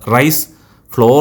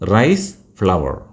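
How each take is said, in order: First: Flour is said like the word floor. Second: Flour is said like the word flower. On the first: The speaker calls it wrong. "Rice ഫ്ലോർ എന്നല്ല പറയേണ്ടത്" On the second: The speaker calls it right.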